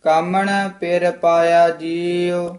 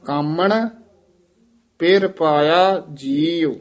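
First: Continuous chant with held ਜੀਉ; scripture recitation. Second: ਕਾਮਣ lifted alone, then a long halt; pause after ਕਾਮਣ. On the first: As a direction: run ਕਾਮਣ straight into the line. Line recited, then broken up. (ਬਿਨਾਂ ਰੁਕੇ ਪਾਠ) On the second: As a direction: break after ਕਾਮਣ, setting ਜੀਉ apart. Demonstrates pause in repeated line. (ਕਾਮਣ ਤੋਂ ਬਾਅਦ ਠਹਿਰਾਅ) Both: Shown as a demonstration.

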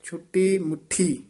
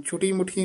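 First: ਛੁੱਟੀ ਮੁੱਠੀ with doubled, pressed ਟ and ਠ; tightened pronunciation. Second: Quick ਛੁੱਟੀ ਮੁੱਠੀ with light single ਟ and ਠ; loose wrong pronunciation. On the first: Teacher modelling the phrase, firm separate ਛੁੱਟੀ ਮੁੱਠੀ. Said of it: "ਥੋੜ੍ਹੇ ਜਿਹੇ ਕੱਸ ਕੇ ਬੋਲਣੇ ਹਨ". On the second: Teacher warning students off it, loose quick ਛੁੱਟੀ ਮੁੱਠੀ. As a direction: slacken the consonants in ਛੁੱਟੀ ਮੁੱਠੀ. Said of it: "ਨਹੀਂ ਕਹਿਣਾ". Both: Shown as a demonstration.

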